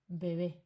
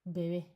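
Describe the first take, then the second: Both takes have the same delivery.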